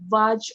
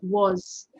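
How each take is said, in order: First: The word ends with a j sound. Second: The word ends with a z sound. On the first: The speaker calls it wrong. "pronounce was as uh, Vaj or something" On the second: The speaker calls it right. "it is the z"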